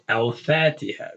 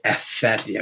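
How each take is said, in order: First: The L of the article is clearly pronounced. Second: The L of the article is merged away. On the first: The speaker calls it right. "we say" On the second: The speaker calls it wrong. "We don't say"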